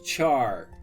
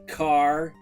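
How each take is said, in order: First: It starts with ch and rhymes with far. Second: It starts with k and rhymes with far. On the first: "some say it as char" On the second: "Some say it as car"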